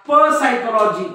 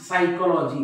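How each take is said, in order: First: A p sound is heard before the s. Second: No p sound is heard before the s. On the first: The speaker calls it wrong. "तुम्ही असं म्हणत का प सायकोलॉजी नाही" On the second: The speaker calls it right. "हा पी silent आहे"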